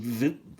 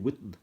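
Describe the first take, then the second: First: The name is said with a German pronunciation. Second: The name is said with an English pronunciation. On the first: "in the German language" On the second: "it's with a W"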